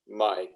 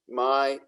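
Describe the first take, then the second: First: The pitch stays low. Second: The pitch stays level in the middle.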